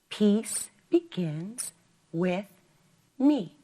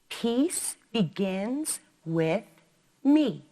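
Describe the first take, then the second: Both takes have the same delivery.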